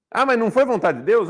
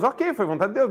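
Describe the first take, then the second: First: Quoted objection, rising and a bit louder; "foi vontade de Deus" voiced as a mock question; mocking objector. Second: Said in the usual way. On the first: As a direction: parrot the pious objection with a skeptical lilt. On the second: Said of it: "mas a pessoa pode chorar".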